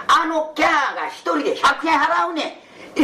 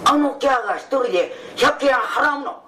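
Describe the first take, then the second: First: 百円 stated flat, falling at the end of 払うねん; matter-of-fact telling, 払うねん dropping; plain statement. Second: 払うの lifted as a surprised question, 百円 stressed; astonished question. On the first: Friend explains who pays, plain falling statement. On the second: Hearing the price, friend echoes in shocked questioning. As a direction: repeat it back in disbelief. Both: Shown as a demonstration. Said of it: "え？".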